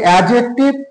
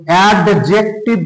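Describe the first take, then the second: First: The d sound is left silent. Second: The d sound is clearly pronounced. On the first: The speaker calls it right. "সেটা হচ্ছে অ্যাডজেক্টিভ" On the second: The speaker calls it wrong. "এই কথাটাও যেমন অ্যাডজেক্টিভ নয়"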